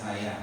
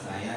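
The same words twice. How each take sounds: Both takes have the same delivery.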